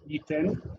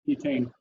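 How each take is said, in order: First: The second vowel is a short plain 'eh'. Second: The second vowel glides like 'ay'. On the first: "in modern pronunciation" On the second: "he says yitain, yitain, and everyone laughs at him"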